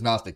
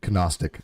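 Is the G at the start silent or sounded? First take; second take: silent; sounded. First: The first letter G is silent. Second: The first letter G is pronounced aloud. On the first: It is the standard way of saying it. "but it is Gnostic" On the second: It copies another person's way of saying it. "I love the way you say it"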